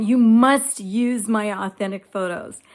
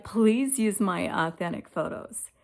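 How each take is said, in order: First: Loud, insistent retold order, stressing "must"; fighting demand. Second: Retold plea, leaning on "Please"; mild begging. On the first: Woman retelling her fights with Chat GPT, loud and insistent. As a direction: replay your side of a fight, loudly and firmly. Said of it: "fighting. I'd be having fights". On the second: Woman retelling how she begged Chat GPT, mildly pleading. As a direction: act out pleading, without raising your voice. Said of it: "to be begging".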